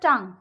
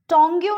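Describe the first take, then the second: First: The word ends with an ng sound. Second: The word ends with a yoo sound. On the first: The speaker calls it right. "वो होता है टंग" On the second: The speaker calls it wrong. "टोंग्यू नहीं होता है"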